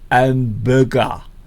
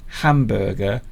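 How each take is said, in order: First: It has an exaggerated foreign-sounding pronunciation. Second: It has a standard English pronunciation. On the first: The speaker calls it wrong. "he says hamburger" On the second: The speaker calls it right. "instead of saying hamburger"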